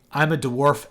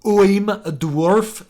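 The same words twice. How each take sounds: First: Said in the usual way. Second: Slow, high, loud overdone dwarf. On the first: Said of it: "you'd say". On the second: Shown as a demonstration. Showing the overdone way to write a dwarf, slow hammed-up voice. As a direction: drag it out like a stage dwarf. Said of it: "Instead of saying".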